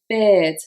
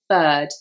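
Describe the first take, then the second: First: The vowel is an ear-like sound. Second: The vowel is a flat er sound. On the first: "In Liverpool, this would be said" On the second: "this would be with the er sound"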